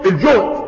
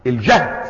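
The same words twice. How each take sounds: First: الجهد said "el-juhd", measured teaching delivery; damma on the jim. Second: الجهد said "el-jahd", lower pitch; fatha on the jim. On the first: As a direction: demonstrate الجهد with a rounded "u" vowel. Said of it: "وهو بالضم". (الجهد بضم الجيم) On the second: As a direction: demonstrate الجهد with an open "a" vowel. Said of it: "وبالفتح المشقة". (الجهد بفتح الجيم) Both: Shown as a demonstration.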